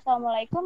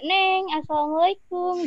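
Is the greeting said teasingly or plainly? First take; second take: plainly; teasingly. First: It is said in a plain, ordinary tone. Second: It is said in a teasing, flirty tone.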